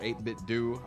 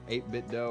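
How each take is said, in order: First: The last syllable ends in an 'oo' vowel. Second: The last syllable ends in an 'oh' vowel.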